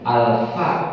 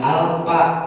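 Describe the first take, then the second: First: The f is made with teeth on lower lip. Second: The f is not made with teeth on lip. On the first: The speaker calls it right. "pengucapan huruf fa dia adalah pada gigi seri alfa fa dengan bibir bawah" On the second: The speaker calls it wrong.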